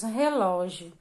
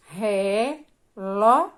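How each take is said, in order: First: Said in the usual way. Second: "Relógio" stretched slowly into syllables, LÓ louder. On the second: Shown as a demonstration. Teacher showing children the strong syllable of "Relógio", slow and split. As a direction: break "Relógio" into re-LÓ-gio, punching LÓ.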